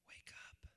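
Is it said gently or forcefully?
gently. It is said softly and gently.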